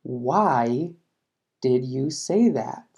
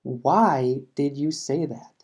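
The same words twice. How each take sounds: First: Slow, careful question for learners; slow classroom model with a falling question tune; slow teaching read. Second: Slow, even model sentence; slower classroom repeat, falling on WHY. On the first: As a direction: spell it out slowly, falling at the end. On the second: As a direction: say it slowly again so learners follow. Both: Shown as a demonstration. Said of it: "Por ejemplo".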